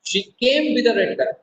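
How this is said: The stress falls on the word came. She arrived rather than left. "Now I am giving stress on the word केम।"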